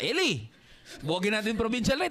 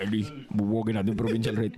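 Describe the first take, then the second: First: It is said in a normal speaking voice. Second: It is said in a put-on demonic voice.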